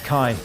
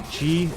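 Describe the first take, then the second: First: The word starts with k, eye vowel. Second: The word starts with a ch sound. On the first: This is another reading heard elsewhere. "I've also heard that pronounced as Kai" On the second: This is the Chinese reading. "the Chinese say Chi"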